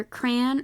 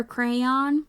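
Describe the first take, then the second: First: Crayon as "cran", rhyming with man; one-syllable crayon. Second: Crayon as CRAY-ON, both vowels heard; two-syllable crayon. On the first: Giving the first common way people say it, one-syllable crayon. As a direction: squash crayon into a single syllable. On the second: Giving the other common way people say it, two-syllable crayon. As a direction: open crayon out into cray plus on. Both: Shown as a demonstration. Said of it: "most common ways people say it".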